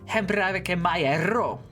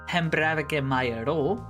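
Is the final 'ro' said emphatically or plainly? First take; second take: emphatically; plainly. First: The final ro is emphasized with a trilled r. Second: The final ro is said plainly without emphasis. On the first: The speaker is really angry and hurt about it. "you can really emphasize it and go" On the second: The speaker is still in pain from it. "just a normal saying"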